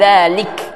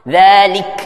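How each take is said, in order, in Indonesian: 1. Vokal i dipendekkan, rahang hampir tidak diturunkan. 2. Vokal i penuh, dengan rahang diturunkan.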